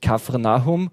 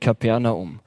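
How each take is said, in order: First: The second consonant is an f sound. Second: The second consonant is a p sound. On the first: The speaker calls it right. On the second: The speaker calls it wrong.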